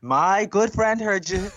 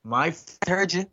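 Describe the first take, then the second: First: GOOD stressed, high, loud and slow; emphatic imitated accusation. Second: High, drawn-out indignant retort; imitated accusation. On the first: Drag queen vouching for witness, louder stress on "good". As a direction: lean hard on "good", dragging the line out. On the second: Drag queen confronting cinema lads with witness, imitated accusation. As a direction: mimic an accuser, slow and pitched up. Friend insists, first take before emphasis.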